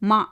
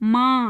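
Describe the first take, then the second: First: The vowel is plain, without nasalization. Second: The vowel is nasalized through the nose. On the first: "சந்திரபிந்து இல்லாமல் நான் சொன்னேன்னா" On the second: "இல்லைன்னா"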